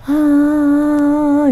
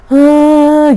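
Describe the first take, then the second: First: A faint, quiet sobbing breath; soft crying gasp. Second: A loud, higher sobbing cry; louder crying gasp. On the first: Ghost heard through the window, faint sob. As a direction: mimic a distant woman crying softly, higher. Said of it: "Itu masih pelan". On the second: Ghost crying outside the window, now loud sob. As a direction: mimic the woman's crying growing louder. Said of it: "semakin keras gitu loh suaranya". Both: Retold or imitated.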